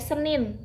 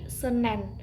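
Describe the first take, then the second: First: The second syllable has the vowel 'i'. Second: The second syllable has the vowel 'e'. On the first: This is the standard form. The speaker calls it right. "Hari Senin itu memang baku" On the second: This is a non-standard form. The speaker calls it wrong. "kadang ada yang mengucapkan hari Senen"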